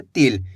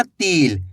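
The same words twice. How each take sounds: First: "तिल" said quickly with a short i; quick short vowel. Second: "तिल" stretched into "teel" with a long ee; wrong long vowel. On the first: Teacher showing learners the right reading, quick short "तिल". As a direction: keep the i in "तिल" brief. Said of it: "तेजी के साथ उच्चारण करना है". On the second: Teacher showing learners the mistake, "तिल" with long ee. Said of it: "ऐसे नहीं पढ़ना". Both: Shown as a demonstration.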